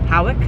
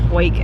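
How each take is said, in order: First: The name is said as two syllables, 'How-ick'. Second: The name is said as one syllable, 'Hoik'. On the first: "the British pronunciation is Howick" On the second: "the American pronunciation is Hoik"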